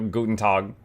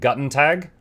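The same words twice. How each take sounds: First: It is pronounced with German sounds for the letters. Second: It is pronounced with English reading of the letters. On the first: "I know just enough German that I know it's like" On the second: "if I read that in English, it'd probably be like"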